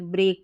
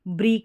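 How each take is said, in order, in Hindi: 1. स्वर की आवाज़ 'ay' जैसी है। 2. स्वर की आवाज़ लंबी 'ee' जैसी है। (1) "ब्रेक पढ़ रहे थे" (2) "ई ए को ब्रीक नहीं पढ़ रहे थे"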